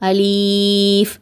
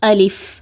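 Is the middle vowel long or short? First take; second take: long; short. First: The middle vowel is stretched long. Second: The middle vowel is kept short. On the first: The speaker calls it wrong. "லீன்னு நீட்டி ஓதுவாங்க" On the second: The speaker calls it right. "இந்த மாதிரி தான் உச்சரிக்கணும்"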